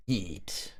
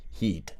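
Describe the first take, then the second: First: Eat, the H of heat dropped; heat without the H. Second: Said in the usual way. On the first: Shown as a demonstration. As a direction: say eat with no H at the start. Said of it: "sounds like he's saying eat because the H is getting buried". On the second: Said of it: "sounds like he's saying eat".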